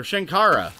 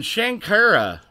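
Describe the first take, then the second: First: "Shankara" with an open "ah", shan-KAH-ra; corrected name. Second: "Shankara" said with an "eh" vowel, shan-KEH-ra; first try at a name. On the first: Streamer correcting a viewer's name to "Shankara" as shan-KAH-ra. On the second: Streamer trying a viewer's name, "Shankara" as shan-KEH-ra. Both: Real, not acted. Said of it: "or Shankara".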